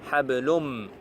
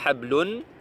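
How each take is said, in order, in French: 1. Le mot se termine par un son m. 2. Le mot se termine par un son n. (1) "on dit hablum. On va directement sur mim" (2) "On ne dit pas hablun"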